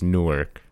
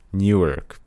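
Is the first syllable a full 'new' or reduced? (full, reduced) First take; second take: reduced; full. First: The first syllable is reduced, not a full 'new'. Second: The first syllable is a full 'new'. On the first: "But then there's Newark" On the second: "I've always pronounced the new"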